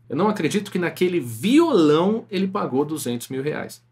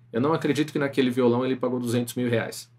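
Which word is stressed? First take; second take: violão; none. First: The word violão is stressed. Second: It is said flat, with no word stressed. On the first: "quando eu dei o ênfase no violão" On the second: "eu vou falar primeiro sem entonação nenhuma"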